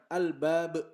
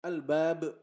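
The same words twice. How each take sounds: Both takes have the same delivery.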